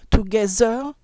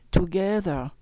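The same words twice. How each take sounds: First: Together with a hard z for th, louder; French-style together with z; wrong z sound. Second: Tongue out, gentle th in together; correct th. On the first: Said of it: "Non, c'est pas bon". (together mal prononcé, avec un z) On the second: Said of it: "Voyez la différence". (together bien prononcé, th doux) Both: Shown as a demonstration.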